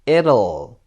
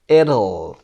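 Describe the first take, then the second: Both takes have the same delivery.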